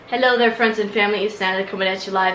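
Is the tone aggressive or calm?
calm. It is said in a calm tone.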